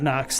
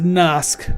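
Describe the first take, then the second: First: The name ends with an s sound. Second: The name ends with a k sound. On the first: The speaker calls it wrong. "not Nox" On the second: The speaker calls it right. "So it's a Nosk"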